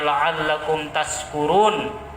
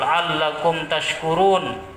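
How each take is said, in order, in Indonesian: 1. Kata kedua memiliki bunyi 's'. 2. Kata kedua memiliki bunyi 'sh'. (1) "tapi kalau kita baca" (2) "Yang seharusnya Al-Quran mengatakan semoga mereka bersyukur"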